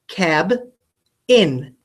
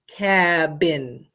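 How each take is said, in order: First: It is said with a break between syllables. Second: It is said smoothly without a break.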